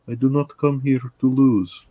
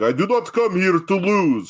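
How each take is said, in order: First: The voice sounds soft and meek. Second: The voice sounds large and intimidating.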